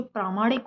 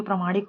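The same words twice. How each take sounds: First: "प्रामाणिक" starting with long "praa"; correct long first vowel. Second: "प्रमाणिक" starting with short "pra"; wrong short first vowel. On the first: Teacher gives the correct form, long "praa" in "प्रामाणिक". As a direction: stretch प्रा in "प्रामाणिक". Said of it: "वो शुद्ध होता है". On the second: Teacher shows the wrong form, short "pra" in "प्रमाणिक". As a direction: keep प्र short in "प्रमाणिक". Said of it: "वो अशुद्ध होता है". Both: Shown as a demonstration.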